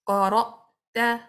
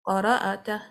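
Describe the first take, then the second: First: The glottal stop closes firmly with no bounce. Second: The glottal stop bounces with a slight echo vowel. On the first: The speaker calls it right. "your sound will be stopped and your, your breathing will be stopped abruptly" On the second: The speaker calls it wrong. "the sound gets bounced, which is a mistake"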